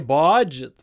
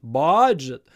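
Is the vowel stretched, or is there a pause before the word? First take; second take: stretched vowel; stretched vowel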